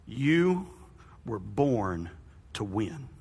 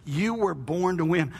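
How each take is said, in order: First: "You were born to win" said low and slow with a pause after "You"; slow, emphatic declaration. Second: "You were born to win" said slowly, leaning on "You"; slow repeat, stress on you. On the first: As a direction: drop the voice and land "born" heavily. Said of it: "most important phrase that I want you to remember". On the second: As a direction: repeat it slower, hitting "You". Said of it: "Some of y'all halfway believe it". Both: Shown as a demonstration.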